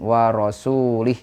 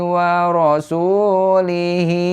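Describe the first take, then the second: First: It ends on a bare consonant with no vowel. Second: It ends on a vowel held for two beats. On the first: The reader stops after this word. "kalau diwakofkan maka dibacanya jadi sukun" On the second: The reader continues into the next word. "kalau diwasolkan itu dua harokat pada hi"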